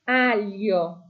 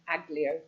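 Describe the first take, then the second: First: The 'gli' sounds like a soft y sound. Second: The 'gli' is said with a hard g and l. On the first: The speaker calls it right. "We want aglio" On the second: The speaker calls it wrong. "much more understandable than aglio"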